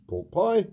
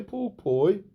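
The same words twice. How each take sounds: First: Said in the usual way. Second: Put-on "Pork Pie" in a high Brum accent with a rising tail; Brummie accent. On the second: Manager answers Pork Pie by name, "Pork Pie" in Brummie accent. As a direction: say "Pork Pie" with Birmingham vowels, pitched up. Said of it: "What the hell is that voice?".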